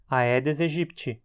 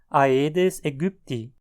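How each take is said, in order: First: It is said with Portuguese pronunciation. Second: It is said with German pronunciation. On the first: It fits a conversation in Portuguese. "a pronúncia mais adequada no contexto de português" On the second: It fits a conversation in German. "Já no alemão, a pronúncia será"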